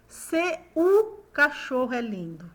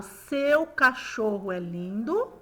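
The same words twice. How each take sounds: First: SEU broken into se-U, two syllables; overseparated SE-U, then the sentence carries on; SEU split in two. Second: SEU glided as one sound, slow sentence; slow model sentence with SEU unbroken; SEU as one syllable. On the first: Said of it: "ou eu falo". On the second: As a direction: say "seu" in one mouth movement, measured pace. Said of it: "eu falo". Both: Shown as a demonstration.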